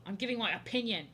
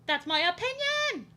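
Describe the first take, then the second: First: Said in the usual way. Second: High, loud, drawn-out holler; mock-defiant yell. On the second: Defending their opinion about creators to viewers, mock-defiant yell.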